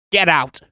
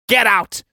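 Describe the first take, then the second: First: Stern order. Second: Louder, higher second shout; angry shout. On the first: Old man orders servant out. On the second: Old man shouting at hesitating Johansson, furious. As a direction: blast the order at the dawdling servant. Servant hesitates, order repeated. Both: Acted.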